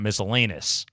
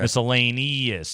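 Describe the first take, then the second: First: The vowel before '-ous' is dropped. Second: The vowel before '-ous' is clearly sounded. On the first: The speaker calls it wrong. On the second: The speaker calls it right. "put in an E"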